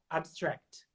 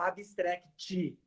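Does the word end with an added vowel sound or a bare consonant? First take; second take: bare consonant; added vowel. First: The word ends sharply on the final consonant. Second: An extra vowel is added after the final consonant. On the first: The speaker calls it right. "engole a vogal no final" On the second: The speaker calls it wrong. "a gente tende a querer colocar uma vogal no final"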